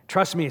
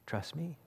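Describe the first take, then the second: First: Said in the usual way. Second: A hushed, seductive trust me; soft devil whisper. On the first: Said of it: "says the devil". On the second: Retold or imitated. The devil murmurs to Jesus, softly tempting. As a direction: breathe it close like a tempter. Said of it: "what's he say".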